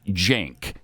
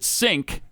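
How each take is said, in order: First: The name begins with a J sound. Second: The name begins with an S sound. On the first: The speaker calls it right. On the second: The speaker calls it wrong.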